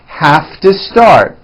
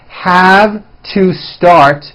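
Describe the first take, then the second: First: The words are squeezed together into one. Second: Each word is said fully and separately.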